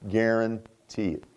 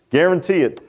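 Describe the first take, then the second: First: "Guarantee it" drawn out low and soft; slow, quiet, weighty assurance; slow, hushed emphasis. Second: Said in the usual way. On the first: Real, not acted. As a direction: drop low and stretch out "Guarantee it". Emphatic repeat, first take hushed and drawn out.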